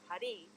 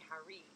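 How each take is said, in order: First: The R is a quick tap like D. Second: The R is a smooth American R. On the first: The speaker calls it right. "the R changes to a rolled R or a D" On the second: The speaker calls it wrong. "if you were to pronounce it in our American way of speaking"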